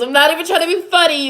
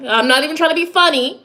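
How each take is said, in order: First: Higher, faster "I'm not even trying to be funny", half-laughing; emphatic repeat. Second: Said in the usual way. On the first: Real, not acted. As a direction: rush it out, insisting.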